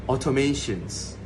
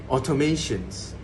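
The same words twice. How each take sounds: The two takes are said the same way.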